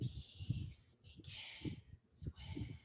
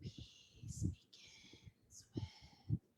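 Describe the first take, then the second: First: It is spoken in a whisper. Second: It is spoken in a whisper.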